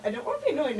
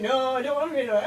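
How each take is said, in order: First: Whiny line through a laugh; laughing whine. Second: Rushed, blubbering fake sob voice; fast fake crying whine. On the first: Pretend. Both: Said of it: "I like talking like that".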